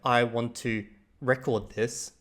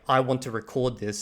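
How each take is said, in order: First: The stress in record is on the first syllable. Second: The stress in record is on the second syllable. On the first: The speaker calls it wrong. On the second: The speaker calls it right.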